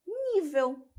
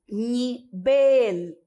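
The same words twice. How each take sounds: First: "nível" stressed high on NÍ, ending in a w sound; Portuguese stress on NÍ. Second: "nivel" split, a louder second syllable said like BEL; Spanish stress on VEL. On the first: Teacher contrasts the Portuguese, high stress on NÍ in "nível". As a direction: lift NÍ in "nível", let the end fall. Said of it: "Em português". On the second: Teacher shows the Spanish word, loudly stressing VEL in "nivel". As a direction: pause after ni, punch VEL in "nivel". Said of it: "nós vamos ter". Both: Shown as a demonstration.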